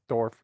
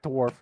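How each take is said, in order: First: It is said as German dorf, without w. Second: It is said like the English word dwarf. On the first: The speaker calls it right. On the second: The speaker calls it wrong. "Not dwarf"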